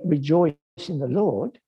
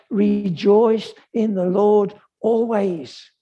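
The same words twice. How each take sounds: First: Said in the usual way. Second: "Rejoice in the Lord always." said slowly and a bit higher, "always" made to count; emphatic quote. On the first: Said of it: "Paul does not just say". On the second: Shown as a demonstration. Preacher stressing Paul's words to the congregation, slow emphasis. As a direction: lean into "always," slow and deliberate. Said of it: "He says".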